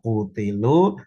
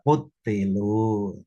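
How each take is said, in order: First: The t sound is short and single. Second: The t sound is doubled and held longer. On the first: "bisa dibaca ringan" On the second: "bisa dibaca dengan tasdid"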